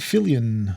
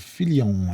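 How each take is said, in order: First: The name has a plain English pronunciation. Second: The name has a French pronunciation.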